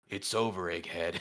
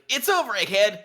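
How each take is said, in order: First: The voice is pitched at its lowest. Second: The voice is pitched at its highest.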